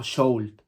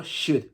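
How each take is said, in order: First: Sold with a long O and clear L; sold as wrong model. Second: Should said shud, no L. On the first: Teacher showing the wrong way, sold. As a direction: sound the L in sold. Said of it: "no digo sold". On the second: Teacher contrasting should with sold. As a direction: say should with a short u and no L. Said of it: "ni la O ni la L". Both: Shown as a demonstration.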